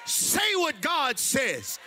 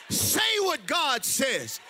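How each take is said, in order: Both takes have the same delivery.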